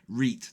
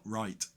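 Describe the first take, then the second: First: The vowel is a long 'ee' sound. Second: The vowel is a gliding 'eye' sound. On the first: "It's nearly in my language now to say reet" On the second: "not right"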